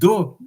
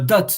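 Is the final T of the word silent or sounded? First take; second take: silent; sounded. First: The word ends without a final T sound. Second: The word ends with a clear final T sound. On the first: The speaker calls it wrong. "I never heard do" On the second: The speaker calls it right. "you are pronouncing the letter at the end"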